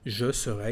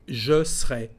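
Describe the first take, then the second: First: Every syllable is said, including the middle vowel. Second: The middle vowel of serai is dropped. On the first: "is a perfect pronunciation" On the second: "you can drop the uh, letter E with the sound E"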